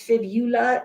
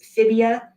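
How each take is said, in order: First: The middle 'ul' syllable is kept. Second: The middle 'ul' syllable is dropped. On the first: The speaker calls it right. "it is fibula" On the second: The speaker calls it wrong. "Please don't pronounce this fibia"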